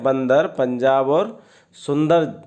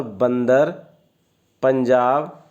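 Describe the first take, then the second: First: Said in the usual way. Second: बंदर, पंजाब said as if the nose were held shut; pinched-nose demo. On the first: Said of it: "बोलने का प्रयास कीजिए". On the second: Shown as a demonstration. Teacher shows class three the words said with nose pinched. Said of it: "नाक को बंद कर लीजिए".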